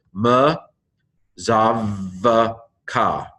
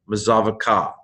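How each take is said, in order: First: Word broken into drawn-out syllables with pauses between. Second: Said in the usual way. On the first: Shown as a demonstration. Teacher breaking a Hebrew word down for learners, syllable by syllable. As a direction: sound out "ma zav ka" piece by piece. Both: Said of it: "the Hebrew pronunciation".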